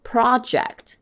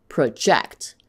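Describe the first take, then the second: First: "Project" as PRO-ject, first syllable high; noun stress. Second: "project" as pruh-JECT; weak first syllable, stressed end on "project"; verb stress. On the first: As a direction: punch the start of "Project". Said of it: "project is a noun". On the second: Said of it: "as a verb". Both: Shown as a demonstration.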